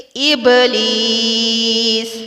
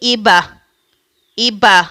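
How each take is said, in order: First: The b has only a light bounce, no vowel. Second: The b is followed by a full a vowel. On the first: The speaker calls it right. "बल्कि हल्का सा झटका" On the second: The speaker calls it wrong. "ऐसा झटका भी नहीं देना कि बाज औकात जबर की सूरत बन जाए"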